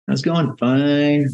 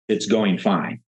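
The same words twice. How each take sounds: First: It is said with hesitation and doubt. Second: It is said happily and confidently.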